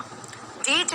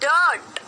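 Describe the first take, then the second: First: The vowel is a long 'ee' sound. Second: The vowel is an 'er' sound. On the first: The speaker calls it wrong. "नहीं बोला" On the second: The speaker calls it right. "अ की।"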